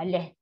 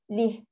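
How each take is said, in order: First: The vowel is an open 'eh' sound. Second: The vowel is a close 'ee' sound. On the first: The speaker calls it wrong. "Sebab apa jadi leh? Sebab kita dah biasa" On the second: The speaker calls it right. "Dalam bawah li"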